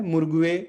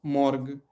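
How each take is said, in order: First: मुर्गुए with the u and e sounded, mur-gu-e; the incorrect way, मुर्गुए said out in full; wrong reading. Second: मॉर्ग as one syllable ending on g, with silent ue; the right way, a short मॉर्ग; correct reading. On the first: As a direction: sound every letter in मुर्गुए as the mistake. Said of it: "इसको कभी भी हमें नहीं पढ़ना है". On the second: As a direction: clip मॉर्ग short, no vowel after the g. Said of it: "उसका उच्चारण क्या हो जाएगा?". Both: Shown as a demonstration.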